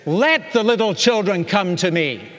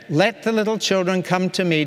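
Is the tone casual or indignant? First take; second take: indignant; casual. First: It is said in an indignant, forceful tone. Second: It is said in a casual, relaxed tone.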